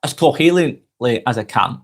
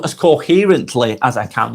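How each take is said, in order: First: "coherently" fumbled, its middle muddled into an L sound; tongue-tied on "coherently", coming out like "co-heelin-ly"; stumbled attempt at clarity. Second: "coherently" sounded out carefully, with its R and T; deliberate, corrected "coherently"; careful, clear speech. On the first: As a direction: trip over the middle of "coherently". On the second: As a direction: say "coherently" cleanly, syllable by syllable. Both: Real, not acted. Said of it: "I try and speak as clearly as I can".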